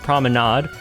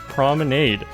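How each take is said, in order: First: It is said with a French pronunciation. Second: It is said with an English pronunciation. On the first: "that's a French word and it's pronounced promenade" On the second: "This is an English word pronounced promenade"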